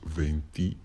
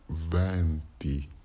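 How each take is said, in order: First: The first vowel is a closed E. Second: The first vowel is an open E. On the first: It means the number twenty. "o som E que uso se remete ao nosso E normal" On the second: It means winds. "o som de E aberto"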